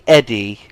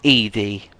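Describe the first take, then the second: First: The first vowel is a short 'eh' sound. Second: The first vowel is a long 'ee' sound. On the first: The speaker calls it right. "it's actually Eddie" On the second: The speaker calls it wrong. "It's not Edie"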